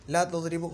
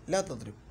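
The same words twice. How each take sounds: First: ला तुदरिबु with a final short "u"; wrong -u ending. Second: ला तुदरिब stopped on the final b, no vowel; correct jazm ending. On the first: Teacher showing what not to say, तुदरिबु ending in "u". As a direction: end तुदरिबु on a "u" vowel. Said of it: "नहीं बोलेंगे". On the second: Teacher giving the correct form, तुदरिब ending on vowelless b. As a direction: cut तुदरिब off on a closed "b". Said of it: "जज़्म आया है". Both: Shown as a demonstration.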